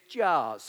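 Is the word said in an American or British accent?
American. The word is said in an American accent.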